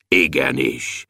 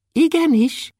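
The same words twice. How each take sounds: First: Deep, low dwarf voice; thick voice. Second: Very high, tiny dwarf voice; thin voice. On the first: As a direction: answer low and thick like a big bell. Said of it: "mondta Bobolysza vastagon". (vastag, mély törpehang) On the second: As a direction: answer in a thin, high pipe. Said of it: "mondta Kökölyszi vékonyan". (vékony, magas törpehang) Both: A narrator's reading.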